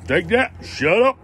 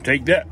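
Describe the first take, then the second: First: Gloating. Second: Said in the usual way. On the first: Real, not acted.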